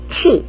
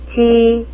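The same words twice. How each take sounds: First: A strong puff of breath follows the consonant. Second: The consonant has a softer, in-between puff of breath. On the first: The speaker calls it wrong. "이게 아니고요" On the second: The speaker calls it right. "치와 찌 중간 발음"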